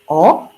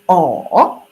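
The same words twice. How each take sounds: First: It is said with the second tone. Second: It is said with the third tone. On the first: "the second tongue will be O" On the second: "Third tongue will be O"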